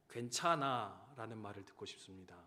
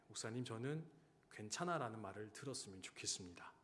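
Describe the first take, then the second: First: Said in the usual way. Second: Soft, hushed repeat of the quiet request; hushed, small voice; quiet retelling. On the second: Retold or imitated. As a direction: say it low and gentle, as the quiet soldier did. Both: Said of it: "조용히 이렇게 말하더라고요".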